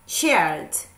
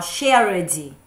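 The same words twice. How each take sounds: First: The ending is just a plain d sound. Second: The ending is said as an extra syllable. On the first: The speaker calls it right. "Só pronuncia, pronuncia o D" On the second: The speaker calls it wrong. "A gente vai pronunciar esse E no final"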